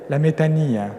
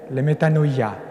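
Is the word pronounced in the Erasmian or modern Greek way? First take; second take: modern Greek; Erasmian. First: The word ends in a short '-nia' sound. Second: The word ends in a drawn-out '-noia' sound.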